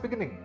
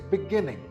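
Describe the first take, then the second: First: The stress is not on the second syllable. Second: The stress is on the second syllable. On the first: The speaker calls it wrong. "This word is not beginning" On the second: The speaker calls it right. "The second syllable is stressed"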